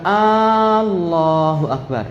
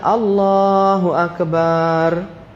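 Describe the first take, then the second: First: The first vowel of Allahu is drawn out. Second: The vowel after b in akbar is drawn out. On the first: It turns the phrase into a question. "membaca alifnya dibaca panjang" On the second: It changes the meaning to a drum. "baknya dibaca panjang"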